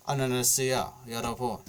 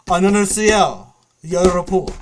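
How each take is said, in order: First: Said in the usual way. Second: Loud mock squeal, slightly high; imitated screaming girl. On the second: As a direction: mimic a girl yelling over game chat. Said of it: "girl screaming".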